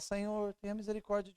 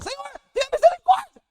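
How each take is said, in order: First: The voice is raised somewhat louder. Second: The voice is at its loudest. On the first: "Elevando a sua voz cada vez mais. Da segunda vez você fala" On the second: "Elevando a sua voz cada vez mais. Na terceira vez você fala"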